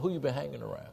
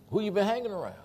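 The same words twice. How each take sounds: First: Softer, moderately raised question; admiring question. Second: High-pitched challenge; retold disapproving question. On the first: Acted. Acted friend noticing a change for the better, softer admiring question. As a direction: ask it as a compliment. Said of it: "let's put it on the good side". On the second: Imitating his pastor after a slip, high disapproving question. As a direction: question them in a raised, suspicious pitch.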